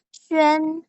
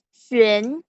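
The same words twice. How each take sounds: First: The pitch stays high and level. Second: The pitch rises from middle to high.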